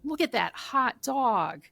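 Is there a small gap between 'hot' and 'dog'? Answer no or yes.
yes. A small gap separates hot and dog. A dog is suffering from the heat. "if it's a really hot day"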